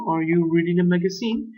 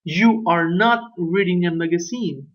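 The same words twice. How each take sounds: First: "magazine" rising at the end as a question; question tune. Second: Statement with the tune falling at the end on "You are not reading a magazine"; negative statement. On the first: Teacher modelling the question form, rising tune. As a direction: ask "Are you reading a magazine?" with a clear rise on "magazine". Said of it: "¿Estás tú leyendo una revista?". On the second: Teacher modelling the negative statement, falling tune. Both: Shown as a demonstration.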